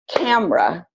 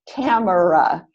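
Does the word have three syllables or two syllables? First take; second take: two; three. First: The word is said with two syllables. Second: The word is said with three syllables. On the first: The speaker calls it right. "we usually pronounce that word with only two syllables" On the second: The speaker calls it wrong. "I hear a lot of people pronounce that word with three syllables"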